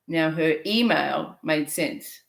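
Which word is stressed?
email. The stress falls on the word email.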